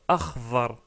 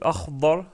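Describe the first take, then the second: First: The middle consonant is an emphatic th-like sound. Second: The middle consonant is an emphatic d-like stop. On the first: The speaker calls it wrong. "on la confond avec la lettre Va" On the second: The speaker calls it right. "au lieu de Akhdar"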